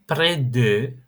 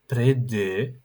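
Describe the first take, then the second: No difference in how they are said.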